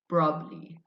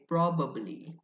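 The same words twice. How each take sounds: First: The two b sounds merge into one. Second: Both b sounds are pronounced separately. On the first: This is how native speakers say it. "the B A B is merged into one sound" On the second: This is how non-native speakers say it. "non-native English speakers they say probably"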